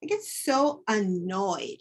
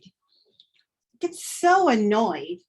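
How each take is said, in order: First: Said in the usual way. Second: Slow, stretched out in annoyance; drawn-out annoyed. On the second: Shown as a demonstration. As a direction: let the annoyance drag on each word.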